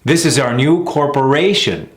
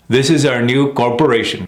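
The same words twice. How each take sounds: First: Sentence landing on a long RA in CORPORATION; third-syllable stress. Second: Sentence with CORPORATION short and evened out; mis-stressed corporation. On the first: Coach modelling it in a sentence, stressed third syllable. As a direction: lean into RA of CORPORATION. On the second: Coach mimicking the mistake in a sentence, mis-stressed. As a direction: give RA in CORPORATION no length. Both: Shown as a demonstration. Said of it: "See the difference?".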